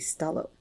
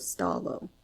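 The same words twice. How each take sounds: First: The O vowel is short. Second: The O vowel is drawn out long. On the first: "without the colon would be Stalo" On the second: "with the colon, it elongates the O sound before it"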